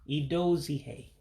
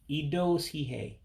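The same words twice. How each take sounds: No difference in how they are said.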